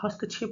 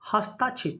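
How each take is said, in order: First: No vowel follows 'hast' before 'kshep'. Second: A long 'aa' vowel follows 'hast'. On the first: The speaker calls it right. "हस्तक्षेप होता है।" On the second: The speaker calls it wrong. "हस्ताक्षेप नहीं, ये क्या होता है?"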